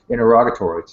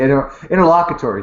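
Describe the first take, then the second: First: Interrogatory, said for interlocutory; wrong word interrogatory. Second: Interlocutory, self-corrected, stressed; corrected word interlocutory. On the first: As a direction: says interrogatory by mistake. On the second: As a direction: fix it to interlocutory. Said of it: "what'd I say?". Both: Real, not acted.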